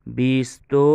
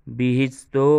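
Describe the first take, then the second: No difference in how they are said.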